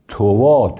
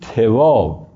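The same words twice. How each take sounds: First: It ends on the vowel, with no n sound. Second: The first vowel is i, not u. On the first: "بدون تنوین" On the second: "به کسر تا"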